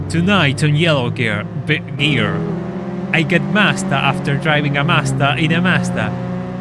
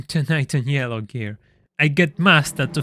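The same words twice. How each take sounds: First: Loud, punchy TV show intro; Top Gear presenter voice. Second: Said in the usual way. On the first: Shown as a demonstration. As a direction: announce it like a car show host. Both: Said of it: "let me read that well".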